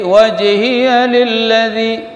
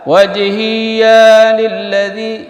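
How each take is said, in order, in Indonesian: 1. Suku kata 'ya' pendek, tidak dipanjangkan. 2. Suku kata 'ya' dibaca panjang. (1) "hi enggak ada tasydid ya, dan ya enggak ada mat" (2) "Jangan dibaca"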